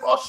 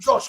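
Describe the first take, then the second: First: The name starts without a J sound. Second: The name starts with a J sound. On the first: The speaker calls it right. "Call him Osh" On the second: The speaker calls it wrong. "Don't call him Josh"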